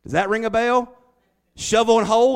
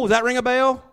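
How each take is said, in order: First: Loud, higher teasing question; preacher playing Joseph's taunt; mock taunt. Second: Even louder, higher jeering question; preacher pushing Joseph's taunt further; louder mock taunt. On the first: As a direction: needle them with it. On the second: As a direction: rub it in harder. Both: Mocking brothers, quoting Joseph.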